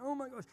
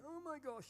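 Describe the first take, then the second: First: Lifted, fed-up groan; high exasperated oh my gosh. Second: High, soft groaning oh my gosh; sitting through an endless show, quietly despairing; mock exasperated. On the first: Retold or imitated. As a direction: let it out high and weary. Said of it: "She's sitting there going". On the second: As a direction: moan it, fed up. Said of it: "like, going".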